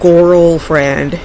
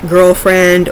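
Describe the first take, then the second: First: The word is pronounced in a distorted, odd way. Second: The word is pronounced in the standard way.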